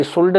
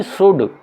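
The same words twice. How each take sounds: First: सुल्ड with the L sounded; L pronounced in should. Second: सुड with no L; silent L in should. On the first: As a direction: say सुल्ड, voicing L before the D. (सुल्ड, ल बोलकर) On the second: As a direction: say सुड, going straight from vowel to D. (सुड, बिना ल के) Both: Shown as a demonstration. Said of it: "सुल्ड नहीं".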